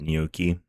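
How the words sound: The word is said with an American pronunciation.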